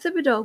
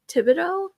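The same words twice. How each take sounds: First: The name begins with a th sound. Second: The name begins with a plain t sound. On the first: "because the T H, there's a, there's a th" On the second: "I hear other people pronounce your name"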